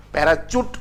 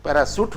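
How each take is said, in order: First: पैराचूट said with a ch sound; पैराचूट, mispronounced with ch; wrong ch pronunciation. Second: पैराशूट said with a clear sh sound; पैराशूट pronounced properly with sh; correct sh pronunciation. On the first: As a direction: say पैराचूट with "ch" instead of "sh". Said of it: "पैराशूट होता है". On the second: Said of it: "होता है". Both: Shown as a demonstration.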